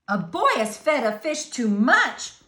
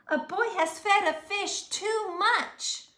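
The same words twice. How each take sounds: First: Fireman repeating. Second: High, urgent radio report; policeman on radio. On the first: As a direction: repeat it back firmly and loud. Fireman repeats reply on radio. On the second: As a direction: report it in alarm, pitched up. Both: A narrator's reading.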